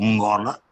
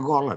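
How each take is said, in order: First: The word starts with a nasal hum before g. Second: The word starts directly with a plain g. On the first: It refers to the king. The speaker calls it right. "quando digo Mongola" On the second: It becomes a different word. The speaker calls it wrong. "se eu não puser o um, fica gola"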